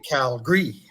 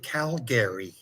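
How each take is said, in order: First: It is said the way Calgary locals say it. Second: It is said the way outsiders say it.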